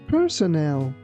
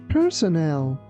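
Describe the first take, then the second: Both takes have the same delivery.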